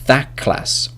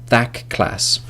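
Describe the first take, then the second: First: The word 'that' ends in a k sound. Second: The same.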